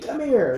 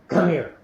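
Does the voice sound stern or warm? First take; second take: warm; stern. First: It is said in a warm, friendly tone. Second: It is said in a stern, scolding tone. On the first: The listener is getting a treat. "He thinks he's getting a treat" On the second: The listener is in trouble. "he knows he's in trouble"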